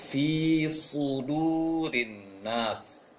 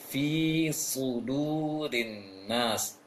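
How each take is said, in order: No difference in how they are said.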